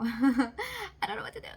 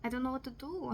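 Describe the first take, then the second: First: Louder, laughing half-sob; mock despair laughing and crying. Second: Said in the usual way. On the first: Real, not acted. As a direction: wail it through a laugh. Repeated, laugh-cry. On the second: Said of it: "repeated with laugh-cry".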